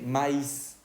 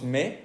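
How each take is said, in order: First: "maíz" slowly as ma-ís; two syllables in "maíz", sounded final S; I and S pronounced. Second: "me" as one syllable, like mé; silent I and S. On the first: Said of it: "En la otra se". ("maíz" despacio, pronunciando la I y la S) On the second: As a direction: end "me" on the vowel, no S. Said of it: "no escuchamos ni la I ni la S". ("me" sin I ni S, una sola sílaba) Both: Shown as a demonstration.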